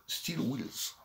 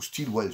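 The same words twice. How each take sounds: First: "Steel Wheels" said very slowly and much softer, trying for English; careful English. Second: "Steel Wells" at his usual pace, with a short e; second guess. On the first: Vlogger apologising for his English, slow and unsure on the title. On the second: Vlogger unsure of the title, trying another reading. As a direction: offer "Steel Wells" as a quick second try. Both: Shown as a demonstration. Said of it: "Désolé pour mon anglais".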